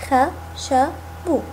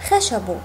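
First: خشب split slowly into خَ شَ بْ; teacher sounding out خشب for children; syllable by syllable. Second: Said in the usual way. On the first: Shown as a demonstration. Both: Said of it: "لنقطعها الآن معا".

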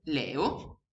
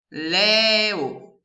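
First: Said in the usual way. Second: Louder "Leo" pulled apart as LE-O; split into syllables. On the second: Shown as a demonstration. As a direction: sound out "Leo" in two beats. ("Leo" diviso in sillabe) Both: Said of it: "La prima parolina è".

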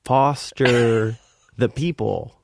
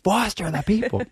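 First: Spelled out slowly, raised pitch; drawn out so a foreigner can follow; slow for a non-English speaker. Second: High, strained mock scream; imitated scream, far above usual pitch. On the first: Retold or imitated. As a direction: say it in separate, deliberate chunks. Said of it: "maybe she doesn't understand English". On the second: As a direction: yell it to get through to her. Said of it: "now I'm, like, screaming".

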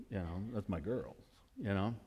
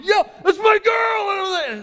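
First: Soft, low, fond murmur; much softer tender take. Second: Much higher, much louder, slow, stretched cheer; full-voiced shouted take; proud shout. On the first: Retold or imitated. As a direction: say it quietly, full of affection. Tender aside about his daughter. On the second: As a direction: scream it across the field at your daughter. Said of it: "And I'm freaking out".

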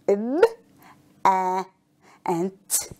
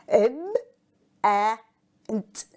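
The two takes are said the same way.

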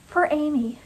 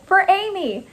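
First: Tearful tribute. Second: High, called-out battle cry; high-pitched, fervent cheer; rallying cry. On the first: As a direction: say it tenderly, holding back tears. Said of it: "There were tears in her eyes". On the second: Rallying cry while throwing plate. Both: A narrator's reading.

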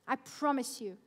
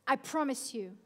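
Both takes have the same delivery.

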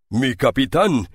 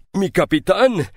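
First: Moved cry. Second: A pirate overjoyed to see his captain; moved cry, rising. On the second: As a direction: push the second cry up with emotion. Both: A narrator's reading.

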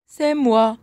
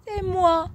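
First: Bouc moyen, voix proche de la voix normale; répondre en bouc, sans voix aiguë; deuxième bouc. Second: Toute petite voix de chevreau, très haut perchée; répondre en petit bouc à voix aiguë. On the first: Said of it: "répondit le deuxième bouc". (deuxième bouc à voix moyenne) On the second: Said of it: "de sa voix aiguë". (petite voix aiguë de bouc) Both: A narrator's reading.

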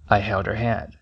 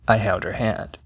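The two takes are said the same way.

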